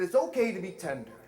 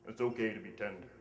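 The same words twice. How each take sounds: First: It is said in an ordinary voice. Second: It is said in a really deep voice.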